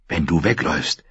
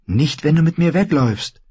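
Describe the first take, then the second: First: Put-on lower, grudging boy's reply; subdued, reluctant objection; sceptical boy. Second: Put-on high, insistent girl's voice; high-pitched, eager persuasion; urging girl. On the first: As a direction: answer in a low, doubtful voice. Boy answers the girl, sceptical. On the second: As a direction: coax him in a high young voice. Girl urging boy to flee. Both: A narrator's reading.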